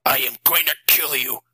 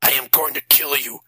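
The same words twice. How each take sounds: First: A touch of a deeper angry shout; understated furious threat; the father threatening the vampire, mildly angry. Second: Shouted threat. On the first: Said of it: "Matt shouted. His voice was deeper than normal". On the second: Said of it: "he shouted". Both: A narrator's reading.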